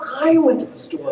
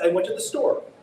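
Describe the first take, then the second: First: The word 'I' is stressed. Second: The word 'I' is not stressed. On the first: It was the speaker, not someone else, who went. "the personal pronoun in that case is in an antithetical position to Tommy" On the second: A plain answer about where the speaker went. "I'd say"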